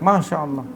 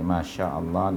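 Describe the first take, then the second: First: It is said with exaggerated, wide-eyed intonation. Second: It is said with flat, even intonation. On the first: The speaker calls it wrong. "pasti terbeliak masya Allah. Begitu. Nah, itu intonasi Melayu lah" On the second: The speaker calls it right. "Datar sajalah perkataan ini"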